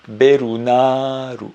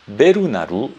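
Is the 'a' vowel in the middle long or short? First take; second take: long; short. First: The middle 'a' is long; the final 'u' is faint. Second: The middle 'a' is short; the final 'u' is clear. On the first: The speaker calls it right. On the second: The speaker calls it wrong.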